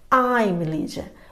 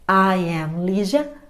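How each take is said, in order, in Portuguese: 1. "I am" é contraído em uma sílaba. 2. "I am" é dito como duas palavras completas.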